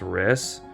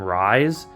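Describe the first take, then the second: First: The name rhymes with 'miss', a short vowel. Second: The name rhymes with 'rise', a long vowel. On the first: The speaker calls it right. "I believe his name is Riss" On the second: The speaker calls it wrong. "I used to call him Rise"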